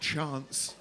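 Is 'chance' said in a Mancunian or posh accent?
posh. It is said in a posh southern accent. This is how outsiders say it. The speaker calls it wrong.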